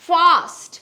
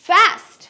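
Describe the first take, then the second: First: It is said with a British accent. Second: It is said with an American accent. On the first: "Britishরা will say fast" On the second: "Americans will say fast"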